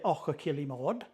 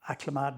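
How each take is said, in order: First: The name is said carefully with every syllable clear. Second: The name is said quickly with syllables run together. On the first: This is the polite, proper way to say it. "if I'm nice about it, I will say" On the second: This is how locals say it. "that's the way we pronounce it"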